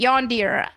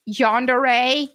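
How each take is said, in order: First: Yondir said as yon-deer, two syllables with a closing r; her own yondir. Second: Yandere said as yan-de-re, three syllables ending in ray; standard yandere. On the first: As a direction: clip yondir to yon-deer, the way she likes it. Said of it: "that's how I like to say it". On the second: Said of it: "I always just say yondir". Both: Shown as a demonstration.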